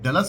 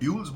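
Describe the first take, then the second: First: The first vowel is a short 'uh' sound. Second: The first vowel is a 'yoo' sound. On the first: The speaker calls it right. "जो वैसे pronunciation में डलस कहते हैं" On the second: The speaker calls it wrong. "लेकिन मैं उसको ड्यूल्स बोल रहा था"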